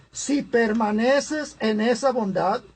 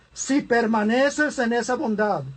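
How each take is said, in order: The two takes are said the same way.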